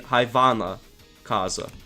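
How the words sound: The middle consonant is a clear v sound. "If it was Lithuanian. Like, the V would be more pronounced"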